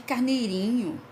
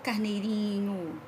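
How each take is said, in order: First: It is said in a scornful, belittling tone. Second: It is said in a warm, tender tone. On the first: The speaker wants to humiliate and put someone down. "aí eu tô querendo humilhar, tô querendo colocar para baixo" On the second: The speaker shows fondness for the little lamb.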